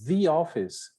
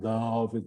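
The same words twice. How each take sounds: First: The word 'the' is said as 'thee'. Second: The word 'the' is said as 'thuh'. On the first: The speaker calls it right. "the office, you see" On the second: The speaker calls it wrong. "not the office"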